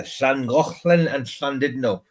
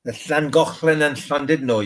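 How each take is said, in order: First: Llangollen and Llandudno with ll as a hissed Welsh lateral and ch throat sound; slow, careful Llangollen and Llandudno in real Welsh; Welsh pronunciation. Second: Llangollen and Llandudno with the Welsh ll hiss and ch sound; Welsh pronunciation. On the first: Teaching his mate the real Welsh names, slow and careful. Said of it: "they call it Llangollen and Llandudno". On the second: Showing his mate how the Welsh say the towns, proper Welsh pronunciation. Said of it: "they call it". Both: Shown as a demonstration.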